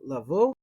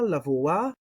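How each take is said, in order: First: The word ends on the o sound. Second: The word ends with an extra a sound. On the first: Other people leave out the final letter. "They'll say something like lavo" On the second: The final letter is pronounced. "I pronounce the aleph"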